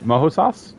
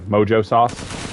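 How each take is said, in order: First: The middle consonant of mojo sounds like h. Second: The middle consonant of mojo sounds like j. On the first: The speaker calls it right. "I think that's how you say it" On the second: The speaker calls it wrong. "not just like mojo sauce"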